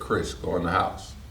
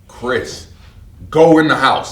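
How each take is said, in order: First: It is whispered very quietly. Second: It is said at full loudness.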